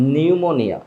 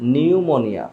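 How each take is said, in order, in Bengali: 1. এটা 'n' উচ্চারণ দিয়ে শুরু হয়। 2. এটা 'n' উচ্চারণ দিয়ে শুরু হয়।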